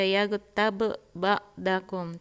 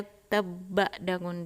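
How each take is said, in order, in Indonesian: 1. Dua bunyi b itu dibaca terpisah. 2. Dua bunyi b itu menyatu menjadi satu. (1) "tidak dibaca"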